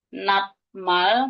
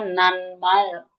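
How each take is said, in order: First: A t sound comes before the m. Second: An n sound comes before the m.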